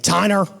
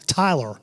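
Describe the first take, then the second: First: The name is said with an N sound. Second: The name is said with an L sound. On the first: The speaker calls it wrong. "I will probably mispronounce your name or I'll tweak your name" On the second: The speaker calls it right. "It's probably the first time I've ever pronounced that right"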